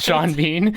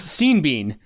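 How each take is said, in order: First: The first name is said like 'shawn'. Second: The first name is said like 'seen'. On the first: The speaker calls it right. "Not Sean Bean" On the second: The speaker calls it wrong. "I could never pronounce"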